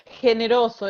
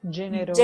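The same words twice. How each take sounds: First: The first sound is not a 'g' sound. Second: The first sound is a 'g' as in 'gem'. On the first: This is the Spanish word. "Generoso es igual" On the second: This is the Italian word. "solo que se pronuncia con la G"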